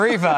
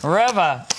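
First: Reva said REE-vuh; corrected pronunciation. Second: Reva said REV-uh; first pronunciation. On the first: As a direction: say Reva with a long EE in the first syllable. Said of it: "I should say". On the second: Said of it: "Or Reva, I should say". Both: Shown as a demonstration.

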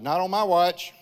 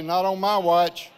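First: Firm, raised retort, a little higher; defiant retort. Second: "Not on my watch" slow and loud, leaning on "my"; slow rallying declaration. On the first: Retold or imitated. Pastor retelling his reply to the stroke message, firm and raised. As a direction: flatly refuse the threat. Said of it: "And I said". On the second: Shown as a demonstration. Pastor leading the congregation to shout "Not on my watch", slow and loud. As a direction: lead the crowd in a bold slogan. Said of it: "put your hands up and say".

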